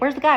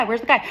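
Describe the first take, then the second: First: High, loud yell for the guy; impatient scream. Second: Repeated mock yell. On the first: Retold or imitated. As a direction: shout over the crowd at the counter. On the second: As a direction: shout it again, still impatient. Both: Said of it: "like, screaming".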